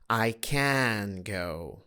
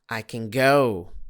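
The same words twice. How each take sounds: First: The word 'can' is full and stressed. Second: The word 'can' is weak and reduced. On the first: The speaker calls it wrong. "Not I can go. No, that's not meaningful" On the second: The speaker calls it right. "if I want to say it as a part of a sentence"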